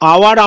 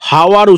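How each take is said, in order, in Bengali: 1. শব্দটি সরাসরি একটি স্বরধ্বনি দিয়ে শুরু হয়। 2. শব্দটি একটি স্পষ্ট h ধ্বনি দিয়ে শুরু হয়। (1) "আওয়ার আমরা উচ্চারণ করছি" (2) "হাওয়ার উচ্চারণ করিনি"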